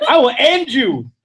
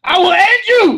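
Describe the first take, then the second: First: Drawn-out mock threat, raised pitch. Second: Loud, high mock-furious yell; escalated mock threat. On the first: Comic warning the interrupting partner, mock threat. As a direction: threaten with laughter underneath. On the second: Comic repeating threat to partner, loud mock fury. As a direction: shout it as an over-the-top threat.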